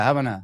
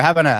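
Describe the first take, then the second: First: Said in the usual way. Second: Raised voice testing the mic; louder mic check. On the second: Real, not acted. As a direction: say it up loud into the mic. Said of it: "all right, here".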